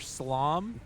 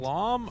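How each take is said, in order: First: The word begins with a plain s sound. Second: The word begins with a sh sound. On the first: The speaker calls it right. "Definitely slom" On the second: The speaker calls it wrong. "Please do not say schlom. That is a cursed term"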